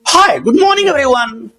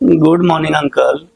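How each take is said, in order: First: It sounds lively, energetic and excited. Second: It sounds slow, nervous and tired.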